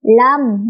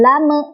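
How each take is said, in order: First: "lam" closed cleanly on the m; no bounce. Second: "lame" with an extra short vowel released after the m; wrong bounced m. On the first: Teacher shows correct mim sukun, clean "lam". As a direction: shut the lips on "lam" without any release vowel. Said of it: "tidak boleh mantul". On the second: Teacher shows the mistake, bouncing "lame". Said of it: "bukan lame". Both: Shown as a demonstration.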